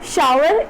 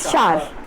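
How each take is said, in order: First: It is said with two syllables, with a w. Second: It is said as one syllable, no w. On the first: The speaker calls it wrong. "शार कोई शावर नहीं होता है ये" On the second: The speaker calls it right. "It's just शार"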